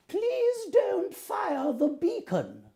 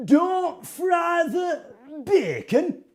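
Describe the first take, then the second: First: High, drawn-out queenly voice; slowly, in a high regal voice; Queen of England. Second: High, drawn-out Hartlepool accent. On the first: Showing Tim the Queen's line, high queenly voice. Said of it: "be the Queen of England". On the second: Showing Tim the mayor's line, high Hartlepool accent. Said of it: "in a very authentic Hartlepool accent". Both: Shown as a demonstration.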